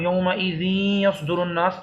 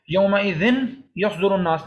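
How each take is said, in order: First: یومئذ یصدر with final n merged into a held nasal y; idgham with ghunnah. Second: یومئذ ending in a clear n before یصدر; unmerged noon. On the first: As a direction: recite یومئذ یصدر joined, humming the merged y. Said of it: "نون اور یا دونوں کی آواز نکل رہی ہے مل کر". (یومئذ یصدر کو نون اور یا ملا کر غنہ سے پڑھیں) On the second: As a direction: separate یومئذ, sounded "-dhin", from یصدر. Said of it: "نہیں پڑھیں گے". (یومئذ کا نون صاف اور یصدر سے الگ پڑھیں) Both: Shown as a demonstration.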